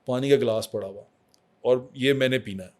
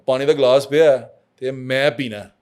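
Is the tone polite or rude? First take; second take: polite; rude. First: It is said in a calm, polite tone. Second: It is said in a harsh, rude tone. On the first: The request is made respectfully. The speaker calls it right. "Logical reason अदब से बताएँ" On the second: The request is made disrespectfully. The speaker calls it wrong. "लहजे में फ़र्क है"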